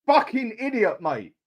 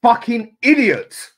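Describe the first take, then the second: First: Said in the usual way. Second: Loud curse. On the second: Real, not acted. Second curse louder.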